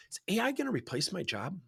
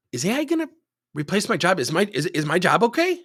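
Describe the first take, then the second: First: Softer, higher employee voice; role-played employee question. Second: Higher, louder role-played worry; pressing employee question. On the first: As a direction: ask the boss softly, pitched up. Role-played employee first asks boss. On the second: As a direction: press the boss for an answer, pitched up.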